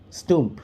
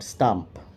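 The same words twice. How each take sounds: First: The vowel sounds like the vowel in 'put'. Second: The vowel sounds like the vowel in 'cup'. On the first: "He pronounces it as stump" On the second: "not stump"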